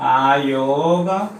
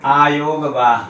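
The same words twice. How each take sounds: First: आयोगवाह drawn out slowly, syllable by syllable; slow careful spelling-out. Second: Said in the usual way. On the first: Shown as a demonstration. Teacher spelling out आयोगवाह for students, slow and careful. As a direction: stretch आयोगवाह slowly so students catch each sound. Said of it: "बोला जाता है". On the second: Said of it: "आयोगवाह का प्रयोग किया गया है".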